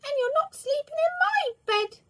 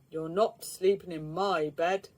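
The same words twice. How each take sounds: First: Very high, loud cub squeak; the little bear refusing his bed to Mister Lazy; squeaky little bear. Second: A booming big bear voice; the big bear refusing his bed to Mister Lazy. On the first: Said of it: "squeaked the little bear". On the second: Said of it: "boomed the big bear". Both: A narrator's reading.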